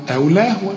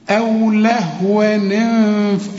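First: أو لهوا ending in open "waa", no n; stopping form. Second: أو لهوا linked as "lahwa-ni-nf", drawn out; tanween with kasra. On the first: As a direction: recite أو لهوا as if pausing. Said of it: "إذا وقفنا هنقول طبعًا". (أو لهوا بالألف عند الوقف) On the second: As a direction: slowly join لهوا to انف with "ni". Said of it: "هنكسر التنوين ده". (أو لهوا موصولة بكسر التنوين) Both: Shown as a demonstration.

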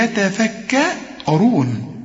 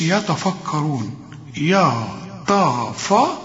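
First: يتفكرون with light fronted ya-ta-fa, heavy RU; correct light letters. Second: يتفكرون with ya, ta, fa all thick and dark; wrong heavy letters. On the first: Teacher models the correction, light يتفكرون with heavy ر. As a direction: draw out يتفكرون, thin vowels until a full dark ر. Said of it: "إنما هنقول إيه". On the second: Teacher shows students the mistake, heavy يتفكرون. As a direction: mispronounce يتفكرون with heavy backed vowels, syllable by syllable. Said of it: "غلط كلها". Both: Shown as a demonstration.

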